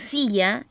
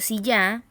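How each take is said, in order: First: The stress is on the first syllable. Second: The stress is on the last syllable. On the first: The speaker calls it right. "cuya eh, sílaba tónica es si, que decimos silla" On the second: The speaker calls it wrong. "y no silla"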